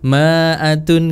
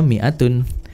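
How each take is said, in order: First: The first syllable is said with an 'a' vowel. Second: The first syllable is said with an 'i' vowel. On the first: The speaker calls it wrong. "Biasanya kalau tertipu sama harokatnya jadinya ma, ma'atun" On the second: The speaker calls it right. "mi'atun dibaca mi'atun"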